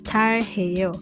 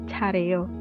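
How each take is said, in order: First: The h sound in the middle is clearly pronounced. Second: The h sound in the middle is dropped.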